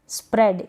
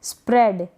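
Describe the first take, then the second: Both takes have the same delivery.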